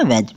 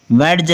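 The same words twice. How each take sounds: First: वेज said with the D dropped, straight into j; silent D. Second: वेज misread with a d sounded before the j; D wrongly pronounced. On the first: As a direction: say वेज as "wej", no d before the j. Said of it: "इसको पना क्या पना है". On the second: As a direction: sound out a d inside वेज, as "wed-j". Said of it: "वेज नहीं, इसको पना क्या पना है". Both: Shown as a demonstration.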